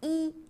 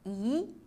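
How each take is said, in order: First: The syllable has a high level tone. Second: The syllable has a rising tone. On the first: "se prononce au premier ton" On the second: "i se lit au deuxième ton"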